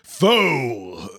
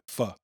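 First: The vowel is a long 'oh' sound. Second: The vowel is a short 'uh' sound. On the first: This is how most Americans say it. "I Americanized it" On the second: This is how professional cooks say it. "Like P-H-U-H, almost"

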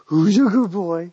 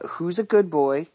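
First: It is said in a put-on talking-to-a-dog voice. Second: It is read in a plain normal voice.

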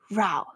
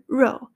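First: Row is said rhyming with cow. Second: Row is said rhyming with go. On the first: A quarrel. "吵架row" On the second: Rowing a boat. "划船row"

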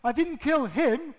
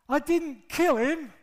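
First: The stress is on "him". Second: The stress is on "kill".

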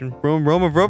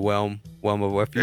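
First: The first word begins with a clear R sound. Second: The first word begins with a W-like sound.

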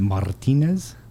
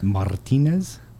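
First: The R is said with a trill. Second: The R is said with a trill.

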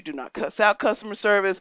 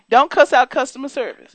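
First: It is said at normal conversational volume. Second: It is yelled loudly and forcefully.

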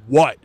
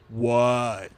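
First: The word is said short and plain. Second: The word is drawn out, Florida-style.

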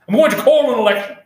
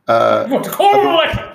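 First: It is said in the speaker's ordinary voice. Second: It is said in an exaggerated put-on voice.

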